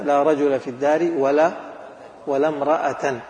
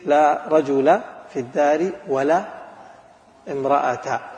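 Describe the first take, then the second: First: The last word ends in an with nunation. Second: The last word ends in a plain short a. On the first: "الحركة الثالثة تنوين نصب" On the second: "الحركة الأولى الفتحة"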